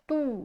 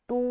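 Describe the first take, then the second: First: The vowel sounds like a long 'oo'. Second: The vowel sounds like a long 'oo'.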